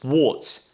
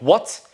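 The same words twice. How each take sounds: First: British "what" with a rounded O vowel; falling, corrective "what" with an O sound. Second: American "what" with an unrounded vowel; "what" said with an open A-like vowel, rising; wrong vowel demo. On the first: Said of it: "It's O sound". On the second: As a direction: show learners the unrounded "what". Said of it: "it's not what". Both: Shown as a demonstration.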